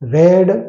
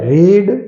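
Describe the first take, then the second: First: The vowel is short, as in red. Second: The vowel is long, as in reed. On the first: It is the past form of the verb. "રીડનું ભૂતકાળ રેડ" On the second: It is the present form of the verb. "મૂળ રૂપમાં"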